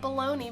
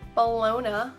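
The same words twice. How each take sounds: First: The word does not end like 'lasagna'. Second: The word ends like 'lasagna'. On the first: The speaker calls it wrong. "it's not bologna" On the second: The speaker calls it right. "Bologna is like lasagna"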